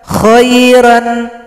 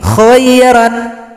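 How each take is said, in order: No difference in how they are said.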